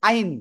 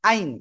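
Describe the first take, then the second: Both takes have the same delivery.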